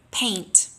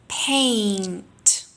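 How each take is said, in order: First: Said in the usual way. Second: "Paint" with the A vowel held long; long drilled vowel. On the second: Shown as a demonstration. Teacher drilling a long A before the n. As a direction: stretch the A in "Paint". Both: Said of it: "Repeat after me".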